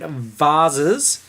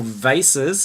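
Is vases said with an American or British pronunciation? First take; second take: British; American. First: The word has a British pronunciation. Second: The word has an American pronunciation.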